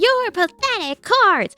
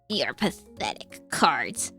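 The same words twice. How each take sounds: First: The voice is lively, animated and energetic. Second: The voice is low, rough and raspy. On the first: This is an overeager take on the character. The speaker calls it wrong. "he's like so animated" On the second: This is the character's familiar way of speaking. The speaker calls it right. "the like lower raspy voice of Kaiba"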